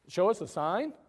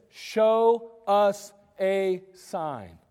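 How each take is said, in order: First: Incredulous echo. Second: Slow, drawn-out demand; slow mocking crowd voice; crowd's demand. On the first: Shown as a demonstration. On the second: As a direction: drag it out like a skeptical crowd.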